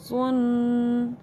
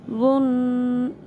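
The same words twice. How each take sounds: First: जुन drawn out with a plain z; za sound. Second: वुन drawn out heavy; heavy dhaad. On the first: Teacher contrasting za with dhaad for students. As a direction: draw out जुन lightly. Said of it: "इसको ज़ा पढ़ेंगे". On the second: Teacher contrasting dhaad with za for students. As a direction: draw out वुन heavily. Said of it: "इसको दौद पढ़ेंगे". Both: Shown as a demonstration.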